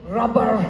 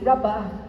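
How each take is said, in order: First: Said in a Scottish accent with the final r. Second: Said in an English accent without the final r. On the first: "if you're Scottish, you say rubber because you say the R on the end" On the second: "English people would say rubber"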